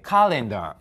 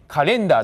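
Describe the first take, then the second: First: The stress is on the first syllable. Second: The stress is on a later syllable. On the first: The speaker calls it right. "全部一番前の母音、そこにアクセントがあります" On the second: The speaker calls it wrong. "カレンダーじゃなくて"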